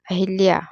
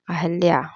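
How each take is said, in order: First: अहिल्या said as "ahilya"; "a-hil-ya" for अहिल्या; wrong pronunciation. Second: अहल्या said as "ahalya"; "a-hal-ya" for अहल्या; correct pronunciation. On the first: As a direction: say अहिल्या with i after the h. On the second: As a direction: say अहल्या with a after the h. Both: Shown as a demonstration. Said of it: "होता ही नहीं है".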